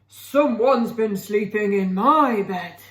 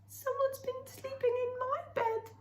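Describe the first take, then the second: First: It is said in a deep, gruff voice. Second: It is said in a high, squeaky voice.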